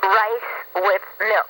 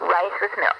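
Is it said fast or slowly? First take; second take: slowly; fast. First: It is said slowly. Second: It is said fast.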